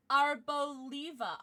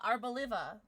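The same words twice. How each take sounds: First: "Arboliva" slowly, with LEE in the middle; "Arboliva" with a long ee; alternate pronunciation. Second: "Arboliva" with a short i as in live; "Arboliva" with LIV in the middle; alternate pronunciation. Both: Shown as a demonstration. Tries two pronunciations, unsure which is right.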